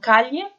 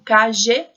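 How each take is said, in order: First: The middle consonant sounds like a palatal ly. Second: The middle consonant sounds like the s in measure. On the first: "como se fosse um L H" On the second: "como se fosse um, só um J"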